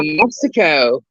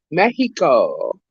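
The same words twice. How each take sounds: First: Said in the usual way. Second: "Mexico" said slowly as MEH-hee-ko; Spanish pronunciation. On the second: Shown as a demonstration. Echoing where a viewer is, "Mexico" as Spanish MEH-hee-ko. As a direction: give "Mexico" a breathy h in place of x. Repeats the name in Spanish form.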